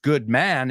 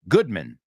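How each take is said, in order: First: The last syllable has a full 'man' vowel. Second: The last syllable is reduced to sound like 'min'. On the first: The speaker calls it wrong. "his last name is not pronounced good man" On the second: The speaker calls it right. "it's Goodman ... El man es min"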